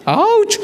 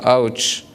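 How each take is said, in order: First: Very high, sudden ouch; mock pained yelp. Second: Low, subdued mock pain; deflated ouch. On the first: Diner hearing he must fish, high pained yelp. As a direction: yelp it in comic dismay. Acts dismay at catching own fish. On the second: Diner after gutting his fish, deflated ouch. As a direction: let the ouch sink, resigned.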